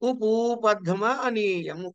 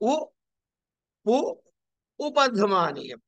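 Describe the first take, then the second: First: The parts merge into one word with long u. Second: The parts are said apart with short vowels.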